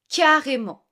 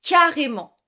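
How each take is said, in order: First: Said in the usual way. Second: Model word, said clearly. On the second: Shown as a demonstration. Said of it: "tu peux dire".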